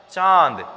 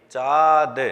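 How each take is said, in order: First: चांद with a nasal aan through the nose; with the nasal sound. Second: चाद said as plain chaad, no nasal a; चाद with an open oral a, no humming nose sound; without the nasal sound. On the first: Teacher shows the right way, चांद with a nasal vowel. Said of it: "एक sound अलग से add हो जाता है". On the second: Teacher shows the wrong way, चाद with no nasal. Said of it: "इसको किस तरह से साउंड करता है ये?". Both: Shown as a demonstration.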